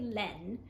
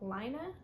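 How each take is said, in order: First: The name is said like the French word. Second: The name is said with a non-French pronunciation. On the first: "I say laine because that is the French word for wool" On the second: "I've heard people pronounce it Lina"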